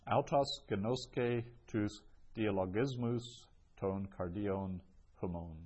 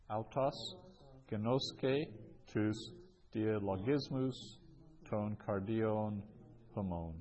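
First: Said in the usual way. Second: Word-by-word reading. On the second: Shown as a demonstration. Teacher repeats the fourth example for learners, word by word. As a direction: separate each Greek word for the students.

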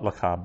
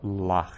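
First: Lecha said with two short syllables, le-CHA; teaching the ordinary form lecha; normal form lecha. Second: Lach as one long, drawn-out syllable, falling; teaching the lengthened pausal form lach. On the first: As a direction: say lecha short, stress on the end. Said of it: "from lecha to lach". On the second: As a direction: stretch the vowel in lach. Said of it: "And we call that a pausal form". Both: Shown as a demonstration.

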